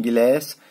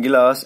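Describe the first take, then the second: First: American accent. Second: British accent. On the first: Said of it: "American बोलते हैं गिलास". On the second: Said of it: "British में बोलते हैं गिलास". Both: Shown as a demonstration.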